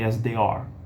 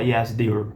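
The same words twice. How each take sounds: First: The final word is said fully, unhurried. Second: The final word is rushed and reduced. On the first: The speaker calls it right. "porque tá no fim da frase, não precisa correr" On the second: The speaker calls it wrong. "Você não pode falar"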